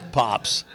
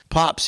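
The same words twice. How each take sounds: First: Said in the usual way. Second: Put-on higher, light child call of "Pops"; grandson calling Pops. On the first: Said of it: "makes me feel a hundred seventy-five years old". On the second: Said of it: "he calls me".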